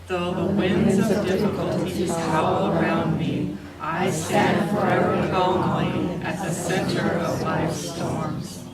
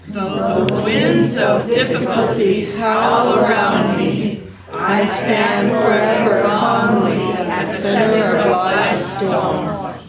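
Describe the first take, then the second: First: It is said in a normal voice. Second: It is said in a loud voice.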